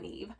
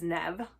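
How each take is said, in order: First: The name has a long vowel, as in 'leave'. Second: The name has a short vowel, as in 'rev'. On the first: The speaker calls it wrong. "not Neve" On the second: The speaker calls it right. "it is Nev"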